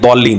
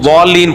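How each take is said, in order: First: The word begins with a d-like sound. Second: The word begins with a w-like sound. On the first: The speaker calls it wrong. "ये बिल्कुल गलत है" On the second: The speaker calls it right. "वा के मुशाबे पढ़ ले"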